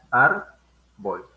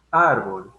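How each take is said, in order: First: "Ar" punched loud, then a pause before "bol"; syllable by syllable, "Ar" then "bol"; split into syllables. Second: "Árbol" said whole and louder on ÁR; stress on ÁR. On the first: Teacher splitting "Ar, bol" for the class, stressing "Ar". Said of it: "tienen dos sílabas". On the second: Teacher showing the class where "Árbol" is stressed. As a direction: lean on the ÁR of "Árbol". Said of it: "Si se dan cuenta". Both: Shown as a demonstration.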